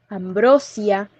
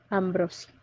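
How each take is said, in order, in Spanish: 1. El acento cae en la tercera sílaba. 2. El acento cae en la segunda sílaba. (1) "la variante correcta tiene cuatro sílabas" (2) "exige el desplazamiento de su acento"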